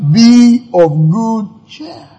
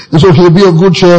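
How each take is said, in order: First: Drawn out slowly, lifted; slow emphatic. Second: Said in the usual way. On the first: Shown as a demonstration. Preacher savours Jesus' words to disciples, slowly. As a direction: stretch every word of Be of good cheer. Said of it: "repeats Jesus' line slowly". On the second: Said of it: "retells the line plainly".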